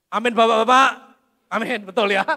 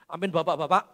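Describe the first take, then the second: First: Much louder, ringing repeat calling to the men. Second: Said in the usual way. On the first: Shown as a demonstration. Preacher to the men in the crowd, loud teasing amen. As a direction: call the fathers out, loud and teasing.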